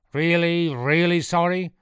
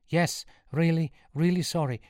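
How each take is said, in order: First: High, loud, incredulous question; demanding. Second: High, pleading answer; earnest apology. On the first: Priest testing Sean's apology, loud and demanding. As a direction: press the question loudly. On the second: Sean assuring the priest he is sorry, high and pleading. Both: A narrator's reading.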